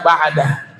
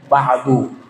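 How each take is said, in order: First: The word ends with an 'a' vowel. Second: The word ends with a 'u' vowel. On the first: The completing phrase after it is spoken. "dibacanya ba'da" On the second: The completing phrase after it is left out. "maka dibacanya ba'du"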